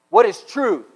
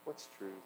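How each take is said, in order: First: It is said in an angry tone. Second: It is said in a depressed tone.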